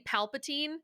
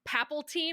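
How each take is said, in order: First: The name is said as Palpatine. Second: The name is said as Papaltine. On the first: The speaker calls it right. "you couldn't say Palpatine?" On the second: The speaker calls it wrong. "Is that what you kept saying?"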